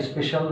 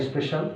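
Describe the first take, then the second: No difference in how they are said.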